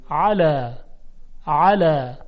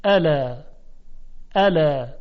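First: "علا" with a pressed Arabic ain onset. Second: "الا" opened with a light glottal hamza, plain Persian a; "الا" with a simple hamza onset. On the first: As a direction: squeeze the throat to start "علا" with a strong ain. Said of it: "حالا علای با عین". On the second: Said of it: "اول علای با همزه". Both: Shown as a demonstration.

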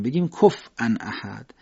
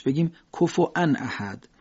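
First: کفوان with a silent f and a hamza, slowly. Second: کفوان said with a glottal stop where the waw was, slowly; hamza for waw. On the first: Teacher demonstrating the silent fa reading, slow. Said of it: "فا رو ساکن کنیم". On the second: Teacher demonstrating the hamza reading, slow. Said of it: "به جای واو با همزه بخونیمش". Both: Shown as a demonstration.

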